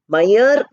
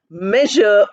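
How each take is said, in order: First: The middle zh sound is dropped. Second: The middle zh sound is kept. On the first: The speaker calls it wrong. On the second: The speaker calls it right.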